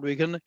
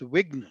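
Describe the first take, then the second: First: A vowel separates the gh and n sounds. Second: The gh and n sounds join with no vowel. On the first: The speaker calls it wrong. "The word is not विघन" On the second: The speaker calls it right. "घा बिल्कुल आधा"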